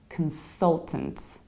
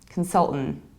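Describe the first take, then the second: First: Both T sounds are pronounced. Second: Both middle and final T are dropped. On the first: "We say consultant" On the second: "skip the final T too"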